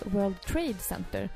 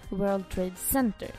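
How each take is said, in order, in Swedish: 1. Betoningen ligger på ordet Trade. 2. Betoningen ligger på ett annat ord än Trade. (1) "det heter World Trade Center ... Betoning på trade" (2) "och inte"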